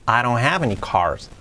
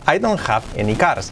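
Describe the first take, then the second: First: It is spoken with natural English sounds. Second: It is spoken with Spanish-style sounds. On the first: The speaker calls it right. "Bien pronunciado" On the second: The speaker calls it wrong. "mal pronunciado"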